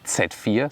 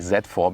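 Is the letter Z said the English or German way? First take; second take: German; English. First: The letter Z is said the German way. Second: The letter Z is said the English way. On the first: "the German pronunciation would be Z four" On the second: "I always say Z four"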